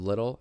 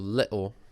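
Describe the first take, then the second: First: It is said in the speaker's usual accent. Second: It is said in a stereotyped British accent. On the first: "Instead of little" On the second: "the stereotypical, not even real British accent of little"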